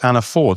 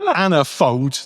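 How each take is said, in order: First: The name ends without an s sound. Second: The name ends with an added s sound. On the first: The speaker calls it right. "It's Anna Ford" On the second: The speaker calls it wrong. "not right"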